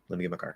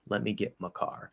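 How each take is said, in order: First: The phrase is said quickly with reduced my. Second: The phrase is said at normal speed, reduced my. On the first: The reduced word does not stand out. The speaker calls it right. "fast speech, no problem" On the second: It sounds uneducated or too informal. The speaker calls it wrong. "in normal speed speech, I'm going to say no"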